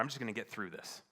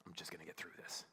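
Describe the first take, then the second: First: Brisk, exasperated declaration; insistent resolve. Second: Low, very soft repetition; sober realization. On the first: Husband telling God he'll cope, brisk exasperated resolve. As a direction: say it quickly as a last retort. End of retold argument with God. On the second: Husband realizing what he said for months, quiet and sober. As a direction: let it drop to a quiet, reflective murmur. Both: Retold or imitated.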